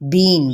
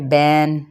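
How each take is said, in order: First: The vowel is a long ee. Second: The vowel is an ai sound. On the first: "इसको बढ़ा के पढ़ा पढ़ दें" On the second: "मजहूल भी ना पढ़ा जाए"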